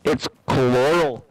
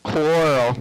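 First: "coral" drawn out slowly, three syllables "co-lor-al"; slow insistent pronunciation. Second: "Coral" said with a drawn-out mock Canadian vowel; mock Canadian pronunciation. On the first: Insisting to friends on the right way, slow "coral". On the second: Joking to friends about how Canadians say corn, drawn-out "Coral". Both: Shown as a demonstration. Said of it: "Say it right, eh?".

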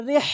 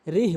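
First: রিহ with a strong throaty h; heavy pharyngeal h in রিহ; big ha. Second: রিহ with a light h; small ha. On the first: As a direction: press out the h ending রিহ. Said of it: "বলতে হবে". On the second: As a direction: let রিহ end on a weak breath of h. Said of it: "ছোট হা উচ্চারণ করি". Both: Shown as a demonstration.

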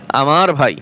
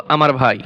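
Both takes have the same delivery.

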